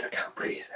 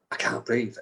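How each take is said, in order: First: Mock gasped whisper, out of air; struggling to get words out; breathless. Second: Said in the usual way. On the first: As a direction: whisper it as if the air has gone. Retelling a breathless trance.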